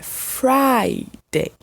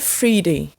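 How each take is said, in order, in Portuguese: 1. A vogal soa como a letra I. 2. A vogal não soa como a letra I. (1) "pronunciado com uma letrinha I, que é pronunciada sozinha no alfabeto" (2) "não é Friday"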